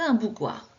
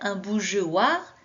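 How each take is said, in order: First: The g is hard, like in go. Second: The g is soft, like the j sound. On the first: "si je ne mets pas le E" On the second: "je devrais lire"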